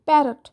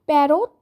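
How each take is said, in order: First: প্যারট said short, with an unstressed "rot" ending; crisp, falling প্যারট with a short second vowel; correct pronunciation demo. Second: প্যারট with a long, full O in the second syllable, "pa-rote"; wrong pronunciation demo. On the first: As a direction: say প্যারট as "PA-rut", stress up front. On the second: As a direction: draw out the end of প্যারট as "rote". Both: Shown as a demonstration. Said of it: "এইভাবে উচ্চারণ করবে না".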